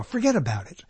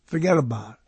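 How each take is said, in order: First: Said in the usual way. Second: Forget about it, New York style; a light New York mobster accent. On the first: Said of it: "Now, "forget about it". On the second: Shown as a demonstration. Talking to listeners about mobster talk, New York accent. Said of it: "New York accent to it".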